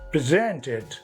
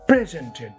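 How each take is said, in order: First: The stress is on the second syllable. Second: The stress is on the first syllable. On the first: The speaker calls it right. "but presented. Verb has accent on the second syllable" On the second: The speaker calls it wrong. "not presented"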